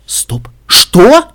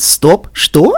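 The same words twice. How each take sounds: First: Startled. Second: Playfully parroted astonishment; giggly mimicry. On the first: Listener baffled at being heard, startled. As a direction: break off, then blurt in disbelief. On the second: Pinkie mimics the listener, giggly. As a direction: repeat someone's shock teasingly. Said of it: "хихикнула Пинки". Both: A narrator's reading.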